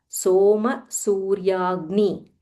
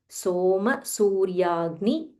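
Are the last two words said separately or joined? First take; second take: joined; joined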